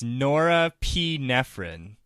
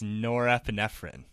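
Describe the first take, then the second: First: The word is said at a slow, careful pace. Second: The word is said quickly, run together.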